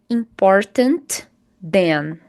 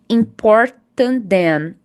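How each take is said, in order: First: The consonant is pronounced at both word edges. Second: The shared consonant is pronounced only once. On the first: "Não precisa dizer" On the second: "você vai falar uma vez só essa letra e sempre vai ser da segunda palavra"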